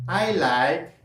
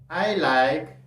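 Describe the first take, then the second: Both takes have the same delivery.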